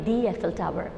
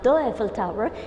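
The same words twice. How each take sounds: First: 'The' is said with a long ee vowel. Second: 'The' is said with a short uh vowel. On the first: The speaker calls it right. "it will be" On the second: The speaker calls it wrong. "We are not going to pronounce it"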